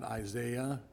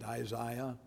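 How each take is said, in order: First: Isaiah with a "zay" middle, eye-ZAY-uh; American pronunciation. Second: Isaiah the English way, middle syllable like "zy"; English pronunciation. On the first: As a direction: say Isaiah slowly, middle rhyming with day. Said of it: "not Isaiah". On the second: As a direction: say Isaiah as eye-ZY-uh, English style. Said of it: "That's how they say it". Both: Shown as a demonstration.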